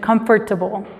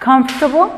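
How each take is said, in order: First: Every letter, including the o, is clearly pronounced. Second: The o after comf is almost silent. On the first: "El inglés de los británicos o de gente de otro pa- país tienden a pronunciar más cada letra" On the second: "en Estados Unidos generalmente van a escuchar"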